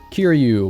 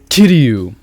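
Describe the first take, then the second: First: The name is pronounced in a casual everyday way. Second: The name is pronounced in a careful purist way.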